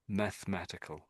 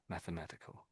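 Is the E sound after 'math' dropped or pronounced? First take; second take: dropped; pronounced. First: The E sound after 'math' is dropped. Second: The E sound after 'math' is pronounced. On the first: The speaker calls it wrong. "I'm sort of missing out the E" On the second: The speaker calls it right. "some people do bounce on their E"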